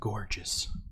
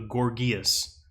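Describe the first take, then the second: First: The name sounds like the word 'gorgeous'. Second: The name does not sound like 'gorgeous'.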